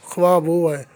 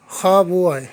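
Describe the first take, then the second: First: ख्वा said as khwaa, the v sounded; ख्वा voiced with the v, the wrong way; wrong pronunciation. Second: खा said as a plain khaa; खा read khaa, v silent; correct pronunciation. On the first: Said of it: "ये नहीं पढ़ेंगे". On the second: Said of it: "इसको असल में पढ़ेंगे खा". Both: Shown as a demonstration.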